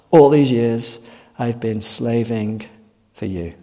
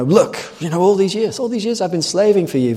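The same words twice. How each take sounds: First: Slow, lower, dragging complaint; weary older brother. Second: Higher, aggrieved complaining son; indignant older brother. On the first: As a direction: let the resentment sink and drag. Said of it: "He does express it though". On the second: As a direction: protest your years of hard work. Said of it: "He summarizes his very impressive record". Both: Acted.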